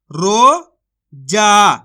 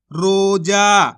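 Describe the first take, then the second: First: Slow, louder रोजा, stretched with a falling end; रोजा held long and loud, then dropped; drawn-out demo word. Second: Said in the usual way. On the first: Shown as a demonstration. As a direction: call out रोजा slowly like a teacher. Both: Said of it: "तो मिलके बन जाएगा".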